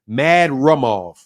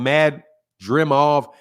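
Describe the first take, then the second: First: The vowel after R sounds like 'uh'. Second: The vowel after R sounds like 'ee'. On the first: The speaker calls it right. "It's like the I is not an I, it's an U" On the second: The speaker calls it wrong. "I was saying Mad Dra. I think I was doing the double D"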